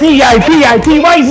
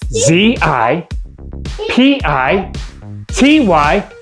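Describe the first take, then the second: First: The letters are said fast. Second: The letters are said slowly.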